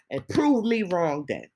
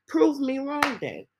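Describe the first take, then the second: First: Said in the usual way. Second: "Prove" hit hard, higher and slower; emphatic repeat. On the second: Shown as a demonstration. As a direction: push "Prove me wrong then" up high, drawn out.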